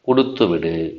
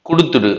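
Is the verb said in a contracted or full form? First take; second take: full; contracted. First: Both words are said fully and separately. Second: The two words are merged into one contracted form. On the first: This is the formal written form. "கொடுத்து விடு என்பது தான் மிகச்சரியானது" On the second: This is the colloquial spoken form. "கொடுத்துடு என்ற பேச்சு வழக்கு"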